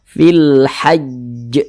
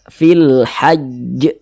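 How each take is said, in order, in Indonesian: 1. Konsonan akhir ditasydidkan dulu, lalu dipantulkan. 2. Konsonan akhir ditasydidkan dulu, lalu dipantulkan.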